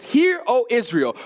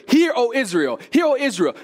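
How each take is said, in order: First: Slow, weighty proclamation; solemn right reading. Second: Raised, hurried proclamation of the wrong version; mock wrong opening. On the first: Shown as a demonstration. Preacher reading the true opening, slow and solemn. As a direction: let each word land slowly. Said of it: "He begins it with". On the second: Preacher mimicking a wrong opening, higher and louder. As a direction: voice the misreading a touch higher and louder. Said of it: "He doesn't begin it with".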